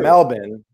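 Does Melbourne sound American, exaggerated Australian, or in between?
exaggerated Australian. It sounds like an exaggerated local Australian pronunciation. The speaker would seem to be faking being local. "I don't want to sound like a poser and call it"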